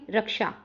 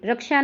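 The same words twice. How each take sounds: First: रक्षा with a clear k-sha; correct consonant. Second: रक्षा in its faulty form, pitched up; mistaken consonant. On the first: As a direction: give रक्षा a distinct ksh cluster. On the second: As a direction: voice रक्षा as the error to avoid. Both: Shown as a demonstration. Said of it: "रक्षा नहीं".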